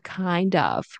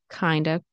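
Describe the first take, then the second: First: Both words are said fully and separately. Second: The words blend into a reduced 'kinda'.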